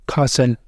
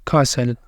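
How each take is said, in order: No difference in how they are said.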